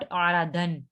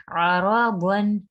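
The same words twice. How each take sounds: First: अरादन with thin ra and a light dan, the wrong way; wrong reading. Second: अराबन with a thick, heavy ra, said slowly. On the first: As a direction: demo of the mistake: अरादन. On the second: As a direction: read slowly, ra full and heavy. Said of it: "मोटा पढ़ेंगे". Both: Shown as a demonstration.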